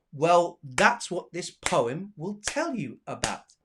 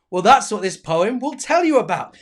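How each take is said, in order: First: Slow line with spaced beats on "that's", "poem", "tell", "about"; clapped rhythm. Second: Said in the usual way. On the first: Shown as a demonstration. Teacher showing the next line has four claps, slow measured recital. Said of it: "gonna have four claps as well". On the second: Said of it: "This is what I read to you".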